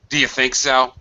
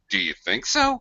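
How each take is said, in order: First: It is said in a mocking, sarcastic tone. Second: It is said in an amazed, disbelieving tone. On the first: The suggestion is dismissed as foolish. "very sarcastic and cynical" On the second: The listener cannot believe the suggestion. "high, low, ending high intonation"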